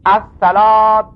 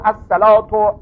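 First: The word ends with an a vowel. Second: The word ends with a u vowel. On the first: "بی نصب الاولین" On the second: "او رفعهما"

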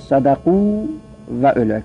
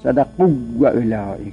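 First: The two w sounds are kept separate. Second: The two w sounds merge into one doubled w. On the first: The speaker calls it right. "لذا صدقو و اولائک" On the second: The speaker calls it wrong. "نگید صدقو و اولائک، ادغام نکنید"

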